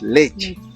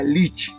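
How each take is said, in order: First: The vowels are said as clear e sounds. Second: The vowels are said as i sounds. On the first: This is the standard Spanish pronunciation. "milk in Spanish is leche" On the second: The speaker's native language has only three vowels. "Aymara's people say like a lich"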